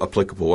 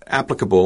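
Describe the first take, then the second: First: "applicable" with stress on the second syllable, ə-PLI-kə-bəl; "applicable" said lower and softer, every syllable clear; careful "applicable", stress moved to -pli-; corrected applicable. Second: "applicable" said fast with stress on the first syllable, ap-; "applicable" as AP-lə-kə-bə, the ending swallowed; casual "applicable" with the first syllable stressed; first try at applicable. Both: Shown as a demonstration. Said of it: "or applicable, I might say".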